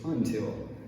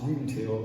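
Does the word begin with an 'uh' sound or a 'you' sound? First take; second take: uh; you. First: The word begins with a short 'uh' sound. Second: The word begins with a 'you' sound. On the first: The speaker calls it right. "it's just until" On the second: The speaker calls it wrong. "it's now not pronounced until"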